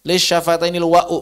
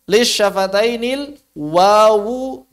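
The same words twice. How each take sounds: First: Wa'u with a glottal break instead of w; the mistake: wa'u; wrong reading. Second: Slow lis syafatainil wawu with clear w in wawu; correct reading. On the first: (wa'u dengan hamzah, cara salah) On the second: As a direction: say wawu, not wa'u, slowly. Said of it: "bukan wa'u". (wawu dibaca jelas, pelan) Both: Shown as a demonstration.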